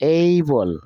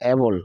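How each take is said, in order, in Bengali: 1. প্রথম স্বরধ্বনিটি e থেকে i-তে glide করে। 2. প্রথম স্বরধ্বনিটি একটি সাধারণ e। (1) "এইবল not এবল" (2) "এইবল not এবল"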